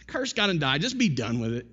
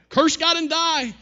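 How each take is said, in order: First: Lightly voiced dismissive nag; a milder scolding, starting raised and falling away; unloving wife. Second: High, loud, drawn-out scolding; mock wifely yell, pitched way up; nagging wife. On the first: Job's wife giving up on him, mildly nagging. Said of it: "Not coming alongside of him loving him". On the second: Job's wife scolding her miserable husband, nagging. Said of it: "a wife who nagged him".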